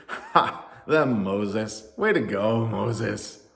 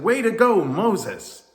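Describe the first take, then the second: First: Mocking laugh, then dry praise; very sarcastic. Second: High, loud jubilant cheer; excited cheer. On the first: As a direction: jeer with fake congratulations. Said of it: "said very sarcastically". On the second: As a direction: cheer wildly for your hero. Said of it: "cheered and all excitedly said". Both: A narrator's reading.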